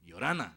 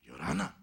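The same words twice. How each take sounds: First: Hello called out to a sleeper; louder, friendly greeting to wake someone. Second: Low, loud sleeper's reply with a rise; deep-voiced greeting back, rising at the end; groggy reply. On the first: Retold or imitated. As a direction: call out a hello. Narrator greets a sleeping man. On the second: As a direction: imitate a big man just woken up. Woken sleeper returns the greeting.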